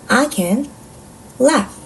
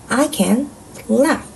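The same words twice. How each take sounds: Both takes have the same delivery.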